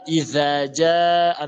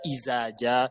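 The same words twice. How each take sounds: First: The middle consonant is a voiced th sound. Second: The middle consonant is a buzzing z sound. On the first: The speaker calls it right. "en mettant la langue entre les dents, tu dis za" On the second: The speaker calls it wrong. "Ce n'est pas Izaja"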